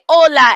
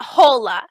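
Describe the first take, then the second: First: The H at the start is silent. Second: The H at the start is pronounced. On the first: The speaker calls it right. "H in Spanish makes no sound at all" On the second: The speaker calls it wrong. "and not hola"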